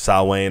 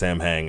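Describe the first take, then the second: First: It is said like 'sow-in', without the m. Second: It is said as two syllables, 'sam hain'. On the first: The speaker calls it right. "is how it's how it's pronounced" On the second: The speaker calls it wrong. "It's not even pronounced Sam Hain"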